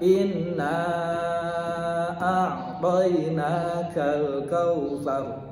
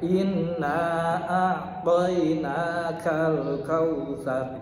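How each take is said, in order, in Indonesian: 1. Vokal panjang dibaca empat ketukan. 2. Vokal panjang dibaca dua ketukan. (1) "Bisa lagi empat" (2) "Bisa dibaca dua ketukan"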